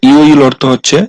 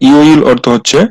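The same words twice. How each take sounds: No difference in how they are said.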